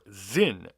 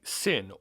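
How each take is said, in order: First: The name begins with a Z sound. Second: The name begins with an S sound. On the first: This is the original German way of saying it. "it is pronounced Zin because it is German" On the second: This is the usual American way of saying it. "That's just how we pronounce it here in the U S"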